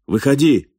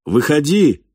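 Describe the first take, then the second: First: Raised voice, pitched up sharply; loud call. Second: High, emphatic order; mental command. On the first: Falk orders the hidden stranger out, loud shout. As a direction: call out loudly from cover. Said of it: "громко крикнул". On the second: Falk silently orders the stranger out, forceful command. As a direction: command it firmly, pitched well up. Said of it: "приказал мысленно Фальк". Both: A narrator's reading.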